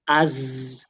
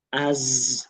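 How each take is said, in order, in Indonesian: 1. Bunyi z dipanjangkan dengan halus. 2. Bunyi z dipanjangkan dengan halus.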